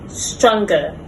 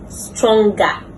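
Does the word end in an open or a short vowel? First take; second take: short; open. First: The ending is a short weak vowel. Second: The ending is an open ah vowel. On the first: The speaker calls it right. "correct pronunciation" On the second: The speaker calls it wrong. "commonly mispronounced"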